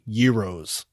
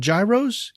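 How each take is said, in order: First: The word begins with a Y sound. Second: The word begins with a J sound. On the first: The speaker calls it right. "you pronounce them euros" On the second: The speaker calls it wrong. "you do not pronounce them gyros"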